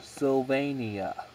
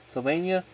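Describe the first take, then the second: First: The word is said with four syllables. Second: The word is said with three syllables. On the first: "or four" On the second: "With three syllables"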